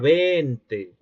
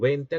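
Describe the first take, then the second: First: A vowel is drawn out long. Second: The vowels are short and plain.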